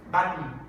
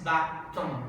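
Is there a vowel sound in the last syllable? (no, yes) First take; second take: no; yes. First: The final n forms the syllable without a vowel. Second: A vowel is pronounced before the final n. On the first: The speaker calls it right. "haces button, button y haces una mm" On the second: The speaker calls it wrong. "Tú no dices button, no, no haces una vocal"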